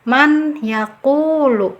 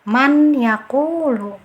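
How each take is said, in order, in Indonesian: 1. N diucapkan dengan jelas, terpisah dari y. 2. N diucapkan dengan jelas, terpisah dari y.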